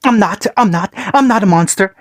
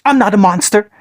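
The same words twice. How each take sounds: First: Cried out. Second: Put-on high, choked sob of a child. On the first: Acted. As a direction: wail it into his father's shirt. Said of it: "Naruto cried out". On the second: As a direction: force it out through the tears. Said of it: "he choked out".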